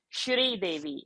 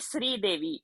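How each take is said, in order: First: The first word begins with an sh sound. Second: The first word begins with a plain s sound. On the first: The speaker calls it right. "it is a Sh sound" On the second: The speaker calls it wrong. "It should not be Sri Devi"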